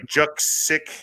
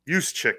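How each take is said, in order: First: The name is said following its written letters. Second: The name is said in its usual pronunciation. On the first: The speaker calls it wrong. "Looks like" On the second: The speaker calls it right. "is how you say it"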